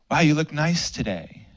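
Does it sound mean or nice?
nice. It sounds sincere and kind.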